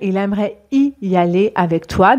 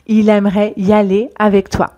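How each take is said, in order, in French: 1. 'y' et 'aller' sont prononcés séparément, avec soin. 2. 'y' et 'aller' s'enchaînent quand on parle vite. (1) "On peut aussi dire" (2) "quand on parle très vite"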